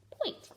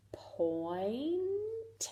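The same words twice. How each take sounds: First: Said in the usual way. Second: Soft whispered point; whispered blend. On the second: Shown as a demonstration. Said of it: "let's sound this out".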